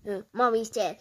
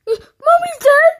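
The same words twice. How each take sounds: First: Said in the usual way. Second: Very high, loud shriek of disbelief; gasp, then shriek it as a question; hammed-up horrified cry; shocked scream. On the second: Screamed repeat of the news.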